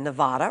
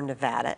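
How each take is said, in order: First: Nevada is said the common outsider way. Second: Nevada is said the way locals say it.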